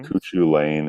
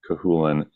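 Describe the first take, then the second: First: The name is read letter by letter, ending 'lane'. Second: The name is said as 'Cahulan', ending 'lan'. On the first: This is how the spelling suggests it sounds. The speaker calls it wrong. "is how it looks like it's spelled" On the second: This is how the name is actually said. The speaker calls it right. "But Cahulan"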